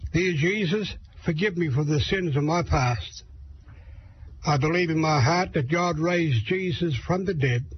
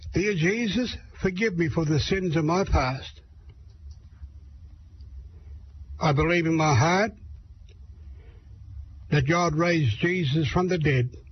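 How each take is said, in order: First: It is said at a faster pace. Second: It is said at a slower pace.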